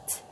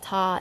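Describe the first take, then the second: First: "t" quiet, no vowel after; just tap "t"; "t" clipped, soft; short t. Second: "ta" with a vowel, louder; "ta" said with full vowel; wrong ta. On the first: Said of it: "It's a very t". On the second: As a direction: add an "ah" after t. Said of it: "It's not ta". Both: Shown as a demonstration.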